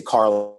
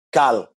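First: Said in the usual way. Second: "Carl" said with no R, like "Kal"; Creole pronunciation. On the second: Retold or imitated. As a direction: say "Carl" the Haitian Creole way, dropping the R. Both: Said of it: "that's how you say Carl in Creole".

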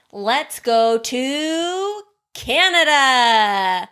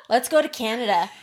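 First: Stretched out, slow, dreamy; slow dreamy invitation. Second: Said in the usual way. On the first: Shown as a demonstration. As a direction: draw it out like a tour guide. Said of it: "In your mind's eye". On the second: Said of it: "Okay, phew".

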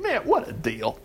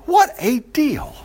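First: Softer, tossed-off remark; quiet aside. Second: Higher, slow, savoured; delighted repeat. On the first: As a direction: say it under your breath. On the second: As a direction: stretch it out in amused wonder. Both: Real, not acted.

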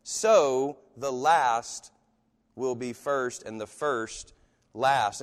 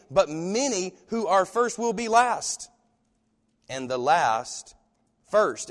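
First: Very slow, drawn out, falling away; slow measured reading. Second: Slow and weighty, stretching each word; slow emphatic reading. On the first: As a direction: let each word land alone. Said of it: "drop down to". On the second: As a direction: lean on first and last. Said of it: "Notice this". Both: Shown as a demonstration.

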